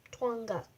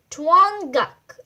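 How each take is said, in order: First: "Twanguk" repeated softly, lower; doubtful reread. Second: "Twanguk" read out louder and firm; bold first read. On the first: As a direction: mutter "Twanguk" unsure. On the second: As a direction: announce "Twanguk" loudly. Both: Shown as a demonstration. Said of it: "I don't think that's even a word".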